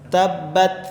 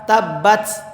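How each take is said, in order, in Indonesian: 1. T di akhir hanya sedikit hembusan napas. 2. T di akhir hembusan napasnya kuat. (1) "hanya sedikit yang keluar" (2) "Terlalu banyak nafas yang keluar"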